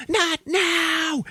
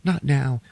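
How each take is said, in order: First: Snapping as she cracks; a mock frantic shriek of not now; coming undone. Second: Put-on brushing the child off; a touch of strain; curt brush-off. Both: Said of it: "Kate Hudson's like".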